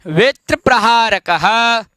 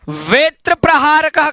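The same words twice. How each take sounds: First: वेत्र प्रहारकः slow, final visarga sounded as "ha"; careful pronunciation. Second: Said in the usual way. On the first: Shown as a demonstration. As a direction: model वेत्र प्रहारकः syllable by syllable. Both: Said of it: "एक बार उच्चारण कर लेंगे".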